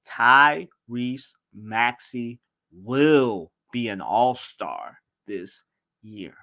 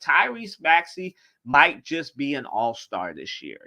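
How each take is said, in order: First: It is said very slowly. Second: It is said at a normal speed.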